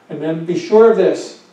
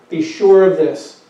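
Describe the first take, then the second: First: Said in the usual way. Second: Slow, louder, each word pressed down firmly; stern and firm. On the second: Shown as a demonstration. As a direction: say it like there's no question at all. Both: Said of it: "he's saying it sternly and firmly".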